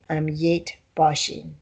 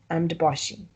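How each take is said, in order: First: The middle word is a full, clear 'yet'. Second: The middle word shrinks to a short 'd'. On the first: The speaker calls it wrong. "You don't say um yet boshing" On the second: The speaker calls it right. "you pronounce it like a D"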